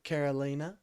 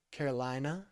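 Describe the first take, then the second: First: "Carolina" said Caro-LEE-na. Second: "Carolina" said Caro-LYE-na, like North Carolina; Carolina, eye. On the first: Greeting caller Carolina, saying Caro-LEE-na. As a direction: say "Carolina" with an ee in the third syllable. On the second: Rechecking caller's name, Caro-LYE-na this time. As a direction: correct "Carolina" to a long eye sound. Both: Real, not acted.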